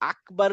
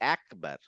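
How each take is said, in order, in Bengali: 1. প্রথম স্বরটি খোলা 'a' ধ্বনি। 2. প্রথম স্বরটি 'e'-র দিকে সরে যায়। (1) "আল্লাহু আকবার না বলে" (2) "ওরা বলে একবার"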